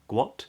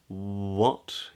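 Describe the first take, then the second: First: The word begins with a hard G sound. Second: The word begins with a rounded W sound. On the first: The speaker calls it wrong. "So it's not gua, gua, guat, guat" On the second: The speaker calls it right. "but it's what"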